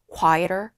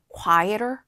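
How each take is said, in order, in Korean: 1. t는 d처럼 부드러운 flap 소리예요. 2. t는 d처럼 부드러운 flap 소리예요.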